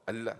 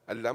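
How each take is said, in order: First: The word is said short and clipped. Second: The word is said short and clipped.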